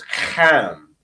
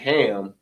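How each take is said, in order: First: It begins with a harsh, throaty h sound. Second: It begins with a plain, soft h sound. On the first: The speaker calls it right. "that ham was a hard H" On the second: The speaker calls it wrong. "It wasn't ham"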